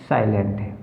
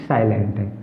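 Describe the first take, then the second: Both takes have the same delivery.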